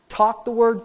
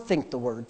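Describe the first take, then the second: First: "Talk the word" pitched up, firm; spoken-out emphasis. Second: "think the word" dropped low and softer; inward answer. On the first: Preacher drilling day-and-night habit, "Talk the word" said out firmly. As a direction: say "Talk the word" out, raised against its answer. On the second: Preacher drilling day-and-night habit, "think the word" low and inward. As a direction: turn "think the word" inward, lower and quieter. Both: Shown as a demonstration. Chanted contrast of talk, think.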